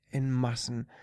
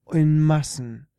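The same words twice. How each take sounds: First: Said in the usual way. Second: Emphatic. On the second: A narrator's reading. Emphatic repetition.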